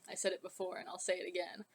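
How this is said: It is said in a put-on deep voice. The speaker calls it right.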